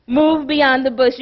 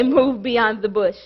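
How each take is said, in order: First: Said in the usual way. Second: Lower, with an unlike timbre; a low, set-apart voice of God giving the charge; God speaking. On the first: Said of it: "for me to say". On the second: Acted. God giving the preacher his sermon title. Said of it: "He said for me to say".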